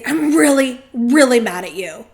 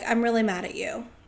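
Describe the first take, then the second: First: It is said in an intense, angry tone. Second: It is said in a calm, matter-of-fact tone.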